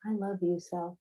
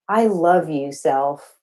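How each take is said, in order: First: Much softer, almost breathed to yourself; hushed affirmation. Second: Affirmation. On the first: Poet guiding audience in self-love, now very softly. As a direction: say it again quietly, just for you. Repeated affirmation, dropped to hush. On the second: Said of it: "I just want you to say". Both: Shown as a demonstration.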